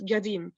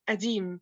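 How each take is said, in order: First: The word begins with a hard g sound. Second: The word begins with a glottal stop. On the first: This is how Upper Egypt says it. "in Upper Egypt it's pronounced as gadim" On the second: This is how most regions of Egypt say it. "the consonant qa is usually replaced by glottal stop ah in most regions of Egypt"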